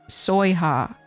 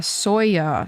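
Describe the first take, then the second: First: An H sound is heard before the last vowel. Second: No H sound is heard before the last vowel.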